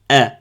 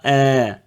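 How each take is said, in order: First: The vowel is short. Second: The vowel is drawn out long. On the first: The speaker calls it right. "hamza fatha a" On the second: The speaker calls it wrong. "ils n'ont pas a"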